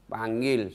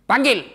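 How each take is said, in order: First: Said in the usual way. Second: Sharp high shout to summon the guard; shouted order. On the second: Retold or imitated. Umar shouting for the guard to be called. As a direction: bark the order loud.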